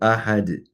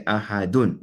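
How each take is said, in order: First: The word ends on 'd' with no 'un'. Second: The word ends with a final 'un' sound. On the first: The speaker calls it right. "we say qul huwa Allahu ahad" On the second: The speaker calls it wrong. "if we were to stop, remember, we don't say ahadun"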